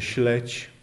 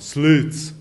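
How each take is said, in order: First: The consonants are pronounced soft and palatalized. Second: The consonants are pronounced hard, not palatalized. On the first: This is the Polish form. "słowo polskie bardzo miękko brzmiące" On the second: This is the Kashubian form. "Po kaszubsku ono brzmi bardzo twardo"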